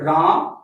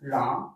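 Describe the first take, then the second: First: The word is said loudest of all. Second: The word is said fairly softly. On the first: The sound carries farther still. "मेरे आवाज थोड़ा और दूरी तक जा रहा है" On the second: The sound carries only a short distance. "आवाज इतने दूर तक गया"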